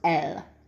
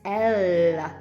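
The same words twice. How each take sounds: First: The L is short, tongue straight up behind teeth. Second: The L is held longer, tongue further back. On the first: "It doesn't do anything else" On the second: "with an Irish accent"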